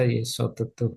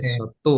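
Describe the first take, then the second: First: The middle vowel is pronounced, adding a syllable. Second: The middle vowel is skipped, giving fewer syllables. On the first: "Kalau dibaca Yesotetu" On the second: "Yesotu kalau nggak dibaca"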